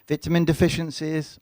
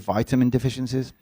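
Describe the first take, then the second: First: It is said in the speaker's own British accent. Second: It is said with an American pronunciation.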